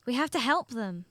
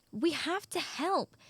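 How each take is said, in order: First: Said in the usual way. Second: Slow, higher "help", drawn out for emphasis; insistent plea. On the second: Acted. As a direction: press the point, stretching "help". Repeats plea to reluctant pig.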